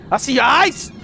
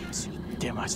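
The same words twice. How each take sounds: First: Said in the usual way. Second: Hushed unvoiced whisper at the creature; whispering to the lurking monster in the dark. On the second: Real, not acted. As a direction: breathe it so the monster won't hear.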